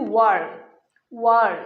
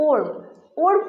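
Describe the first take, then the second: First: ওয়ার্ম said with wa, lower; correct pronunciation. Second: ওর্ম said with an o; wrong pronunciation. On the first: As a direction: model ওয়ার্ম clearly with wa. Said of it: "এই সঠিক উচ্চারণ হচ্ছে". (সঠিক উচ্চারণ: ওয়ার্ম) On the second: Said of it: "এই ওর্ম উচ্চারণটি ভুল". (ভুল উচ্চারণ: ওর্ম) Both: Shown as a demonstration.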